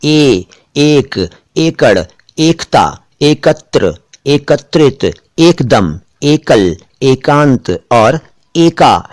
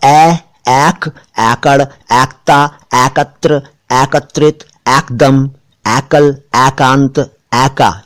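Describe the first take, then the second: First: "एक, एकड़, एकता" with a close e, each word set apart; correct close vowel. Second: "एक, एकड़, एकता" mispronounced as aik, aikar, aikta; wrong open vowel. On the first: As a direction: say "ए" narrow, as a pure ay. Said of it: "ये तो ए". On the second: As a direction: say "ए" wide open, like the a in "cat". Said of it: "इस तरह से बोलेंगे तो गलत हो जाएगा". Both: Shown as a demonstration.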